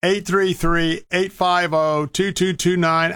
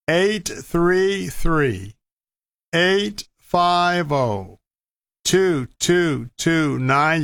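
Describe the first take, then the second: First: Said in the usual way. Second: Very slow, drawn-out digits; slow and deliberate. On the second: Real, not acted. Radio host giving listeners the donation phone number, slowly. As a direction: read the number slowly, digit group by digit group, pausing between. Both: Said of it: "I'll say it slowly".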